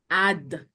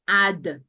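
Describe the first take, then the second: First: It is said as one contracted syllable. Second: The same.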